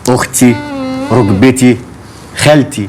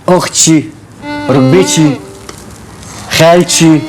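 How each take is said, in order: First: Each word ends without an added sh sound. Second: Each word ends with an added sh sound. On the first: The speaker calls it right. "تقولي" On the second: The speaker calls it wrong. "وتبطلي تحشي حرف الشين اللي في كلامك ده... يعني ما تقوليش"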